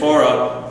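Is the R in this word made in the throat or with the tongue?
tongue. The R is a smooth tongue R. "So we would say Torah"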